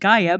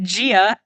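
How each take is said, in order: First: The first syllable sounds like 'guy'. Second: The first syllable sounds like 'gee'. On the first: The speaker calls it right. "appropriately pronounced Gaia" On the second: The speaker calls it wrong. "if all the audiobooks pronounce it Gia"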